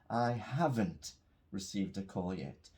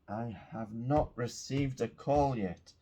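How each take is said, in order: First: Contracted and said in a calm, neutral tone. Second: Uncontracted and said in an impatient, aggressive tone. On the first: The speaker is simply stating a fact. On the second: The speaker is frustrated about waiting.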